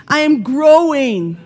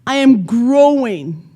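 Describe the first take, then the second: First: Louder and higher, firmly declared; mean it this time; with conviction. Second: Said in the usual way. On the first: Shown as a demonstration. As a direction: belt out the affirmation. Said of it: "Are you growing?". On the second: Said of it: "let it sound like this".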